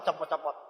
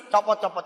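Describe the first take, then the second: First: Copot, copot dropped low and soft; softer coaxing copot, copot; quiet. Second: Said in the usual way. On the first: Shown as a demonstration. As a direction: mutter the repeat under your breath. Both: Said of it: "urging to take the ring off".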